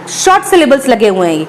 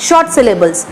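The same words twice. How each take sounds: First: Said in the usual way. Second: "short" stressed as the answer, falling off after it; stress on short. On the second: Shown as a demonstration. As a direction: give "short" a firm teacher's stress. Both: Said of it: "इन syllables को क्या बोलते हैं?".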